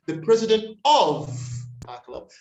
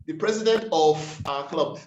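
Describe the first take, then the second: First: Of pushed high and loud, ending in V; corrected pronunciation. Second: Of ending in F in this phrase; common mispronunciation. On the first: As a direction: model of as ov with a held V. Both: Shown as a demonstration. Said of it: "That F turns into a V".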